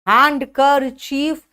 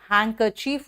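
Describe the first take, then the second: First: The d sound is pronounced in the word. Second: The d sound is left out of the word. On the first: This is how the word is written. "हैंड कर चीफ लिखते हैं" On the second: This is how the word is actually spoken. "हैंकर चीफ बोलते हैं, यहां डी silent है"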